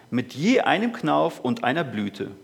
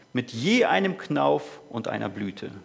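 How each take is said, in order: Both takes have the same delivery.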